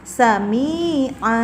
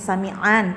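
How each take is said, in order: First: The word ends with a plain vowel. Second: The word ends with an n sound. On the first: The word is read at a stop at the verse end. "di akhir kalimat kita cara membacanya yaitu sami'a, bukan an lagi" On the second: The word is read in the middle of a verse. "kan ada fathatain sami'an"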